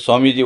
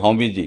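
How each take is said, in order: First: The first word begins with an s sound. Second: The first word begins with an h sound. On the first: "आप बोलोगे" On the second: "वो सा को उच्चारण नहीं करते"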